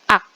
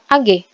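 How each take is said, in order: First: It is read as a single syllable. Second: Each letter is spoken separately. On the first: The speaker calls it wrong. "bukan Ak" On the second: The speaker calls it right. "nama unsurnya adalah A G"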